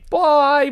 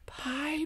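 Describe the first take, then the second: First: It is said at normal loudness. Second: It is said quietly.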